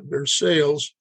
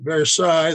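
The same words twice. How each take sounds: First: It is said the Kentucky way. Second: It is said the French way.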